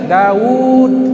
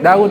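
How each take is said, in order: First: The vowel in the name is held long. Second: The vowel in the name is cut short. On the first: "ada panjang" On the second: "Daud dibaca pendek"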